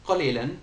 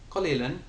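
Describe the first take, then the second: No difference in how they are said.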